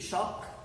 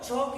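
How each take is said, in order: First: The word begins with a sh sound. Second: The word begins with a ch sound. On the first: "C H should be pronounced as sha, ... this should be shock" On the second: "chalk is okay. C H should be pronounced as cha"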